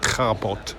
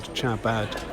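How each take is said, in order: First: The name is said with its native sounds. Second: The name is read like an English spelling. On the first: This is likely how the name is really said. "more likely it, to be pronounced something like Chabot" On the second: It is easier for listeners to understand. "I'm pronouncing that um, as if it were spelling an English word"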